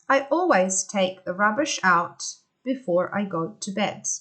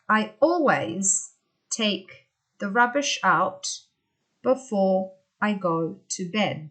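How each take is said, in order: First: It is read at a normal speaking speed. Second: It is read slowly, as for dictation.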